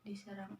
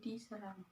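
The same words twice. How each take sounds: The two takes are said the same way.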